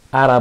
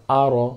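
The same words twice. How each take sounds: First: আরা with a thin, open "aa" after the r; wrong light vowel. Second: আর with a thick, full "ro"; heavy r. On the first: Teacher showing students what not to say, mispronounced thin আরা. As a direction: say আরা with a light, unrounded r syllable. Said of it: "আরা বলবো না". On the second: Teacher showing students the correct form, heavy-r আর. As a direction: say আর with the r syllable made heavy. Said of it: "রকে মোটা করে উচ্চারণ করতে হয়". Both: Shown as a demonstration.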